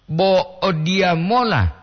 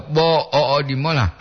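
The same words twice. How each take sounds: First: Bo o dia mola slow and raised, falling at the end; intonation for "heading there". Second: Bo o, o di mola in separate pieces, mola short; intonation for "only this much". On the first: Teacher explaining "going there", Bo o dia mola slow and higher. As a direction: stretch Bo o dia mola, lifting the pitch high. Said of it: "menuju ke sana". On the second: Teacher explaining "only this much", bo o, o di mola in measured pieces. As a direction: break after bo o, keep o di mola level. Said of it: "hanya sebegini". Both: Shown as a demonstration.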